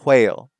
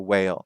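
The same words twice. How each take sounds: First: It begins with a breathy HW sound. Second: It begins with a plain W sound. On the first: "some people who still have like an H sound" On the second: "instead of a whale"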